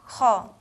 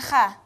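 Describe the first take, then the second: First: The vowel is a rounded 'o' sound. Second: The vowel is an open 'a' sound. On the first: The speaker calls it right. "tapi kho" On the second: The speaker calls it wrong. "Bukan kha"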